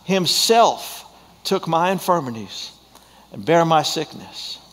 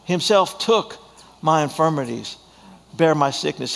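First: The stress is on the word himself. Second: The stress is on the word took.

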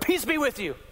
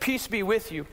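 First: The words are said loudly and abruptly. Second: The words are said quietly and gently. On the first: The greeting startles and frightens the listeners. The speaker calls it wrong. "he just appeared and went, ... Like, scared the heck out of them" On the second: The greeting gently reassures the listeners. The speaker calls it right. "But I don't think he said it that way. He just said"

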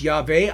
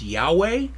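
First: The name is said without a W sound. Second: The name is said with a W sound. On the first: The speaker calls it right. "So I believe it's Yahweh" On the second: The speaker calls it wrong. "I have a problem with that because in Hebrew there is no W sound"

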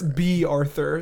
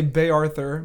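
First: The first name sounds like 'bee'. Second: The first name sounds like 'bay'. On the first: The speaker calls it right. "but it's B Arthur, so it's B" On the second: The speaker calls it wrong. "I always say it wrong because I say Bay Arthur"

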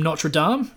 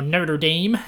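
First: The name is said in a non-American way. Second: The name is said in an American way.

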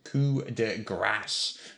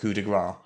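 First: The last word ends with an 's' sound. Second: The last word ends without an 's' sound. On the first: The speaker calls it right. "pronounced coup de grâce" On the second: The speaker calls it wrong. "not coup de gras"

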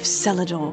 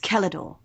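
First: The first C sounds soft, like an S. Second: The first C sounds hard, like a K. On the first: The speaker calls it wrong. "You've got me saying it now" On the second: The speaker calls it right. "with a hard C, from the Celtic"

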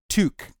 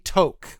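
First: The word is said the Canadian way. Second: The word is said the British way. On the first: "in Canada, ... it is pronounced toque" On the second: "in the UK, England and whatnot, they call a chef's hat a toque"

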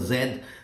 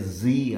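First: The letter is said the British way, zed. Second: The letter is said the American way, zee.

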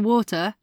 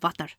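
First: It is said in the speaker's ordinary accent. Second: It is said in an imitated Indian accent. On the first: The speaker calls it wrong. "if you ask for water, not a clue, mate" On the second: The speaker calls it right. "but if you have some water. It's the accent"

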